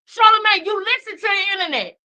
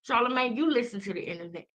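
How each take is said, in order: First: It is yelled loudly. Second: It is said in a lower voice. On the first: "because I'm yelling" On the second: "I'm gonna repeat myself in a lower voice"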